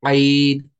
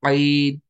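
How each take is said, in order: No difference in how they are said.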